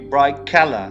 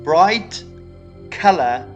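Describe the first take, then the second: First: The final consonant blends into the next consonant. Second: Each word's final consonant is pronounced separately. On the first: "would say" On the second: "Instead of saying"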